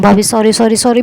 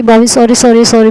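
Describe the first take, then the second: First: Said in the usual way. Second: Repeating "sorry" louder and more urgently; louder pleading sorry. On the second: Retold or imitated. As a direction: beg harder, voice up. Begging angry sister-in-law for forgiveness. (ज़ोर से गिड़गिड़ाते हुए माफ़ी)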